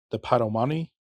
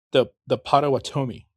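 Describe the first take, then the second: First: "Potawatomi" slurred as pa-to-MAH-nee, syllables dropped; the first stumbling attempt at "Potawatomi"; botched "Potawatomi" before the correction; mispronounced Potawatomi. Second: "Potawatomi" said carefully as pot-oh-WAH-toe-mee; a careful corrected "Potawatomi". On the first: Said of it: "Oh, I'm sorry". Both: Real, not acted.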